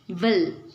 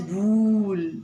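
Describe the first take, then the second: First: The vowel is a short u sound. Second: The vowel is a long oo sound. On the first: The speaker calls it right. "It must be read as will" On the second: The speaker calls it wrong. "Usually W O O L you read as wool, but that's wrong"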